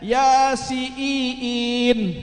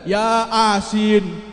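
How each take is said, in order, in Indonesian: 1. Vokal i dibaca panjang. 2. Vokal a dibaca panjang. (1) "Kan I-nya dua" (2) "Kan A-nya dua"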